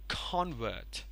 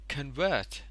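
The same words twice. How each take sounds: First: The stress is on the first syllable. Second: The stress is on the second syllable. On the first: It is used as a noun. "this stroke over con is there" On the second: It is used as a verb. "the stress also changed from the first to the second"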